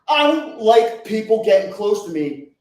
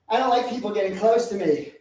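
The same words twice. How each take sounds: First: It is said loudly and forcefully. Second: It is said hesitantly and softly.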